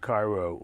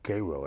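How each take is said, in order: First: Cairo is said the usual, non-local way. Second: Cairo is said the way locals say it.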